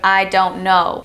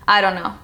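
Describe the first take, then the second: First: Every sound is fully and clearly pronounced. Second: The T is dropped and sounds are reduced. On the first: "instead of" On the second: "The T sound is dropped with the word don't"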